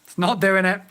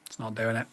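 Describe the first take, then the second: First: Said in the usual way. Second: It's not doing it muttered lower and softer; soft, defeated mutter. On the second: Real, not acted. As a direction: mutter it to yourself. Repeats himself in frustration.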